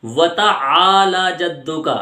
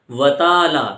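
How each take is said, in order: First: و تعالی جدو کا slow, long aa in تعالی; correct long aa. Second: و تعالی clipped, dropping the long a; short aa, wrong way. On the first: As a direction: drag out تعالی. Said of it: "اس کا صحیح تلفظ". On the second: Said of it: "آ کو چھوڑ دیتے ہیں". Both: Shown as a demonstration.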